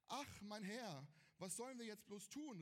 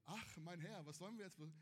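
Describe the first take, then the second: First: Earnest scripture reading of the servant's lament; reading the Bible aloud. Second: Deadpan echo to show the phrasing is too cute; mock flat rereading. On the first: Preacher reading the verse to the youth group, earnest. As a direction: read the servant's cry straight from the page. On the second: Preacher mocking the tame Bible wording to the youth, deadpan. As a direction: repeat it flatter, mildly mocking the tame wording. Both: Shown as a demonstration. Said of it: "ja, also, hallo, ne?".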